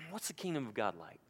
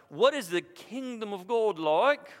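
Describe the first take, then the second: First: It is said in a plain, earnest accent. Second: It is said in a mock British accent. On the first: The speaker is struggling to find a way to explain. The speaker calls it right. "I think he's really wrestling" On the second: The question is posed calmly, as a lofty pronouncement. The speaker calls it wrong. "in this British accent like you might see on Monty Python"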